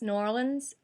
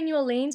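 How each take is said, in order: First: It is said the local American way. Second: It is said the speaker's natural Australian way. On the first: This is how locals say it. The speaker calls it right. "I know it's New Orleans" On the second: This is how an outsider would say it. The speaker calls it wrong. "Like I would say New Orleans"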